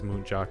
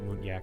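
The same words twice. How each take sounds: First: The j is said as in jam. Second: The j is said as a y sound. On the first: The speaker calls it right. "it probably is muntjac" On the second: The speaker calls it wrong. "that would be more Scandinavian sounding with the y in the j"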